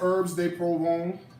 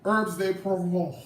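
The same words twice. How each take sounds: First: It is said in a plain American accent. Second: It is said in a put-on French accent.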